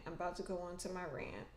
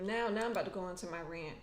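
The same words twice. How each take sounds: First: Quick soft mutter to herself; muttered softly. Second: Said in the usual way. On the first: Real, not acted. Vlogger warning viewers of a rant, muttered quickly. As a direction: drop it under your breath, fast.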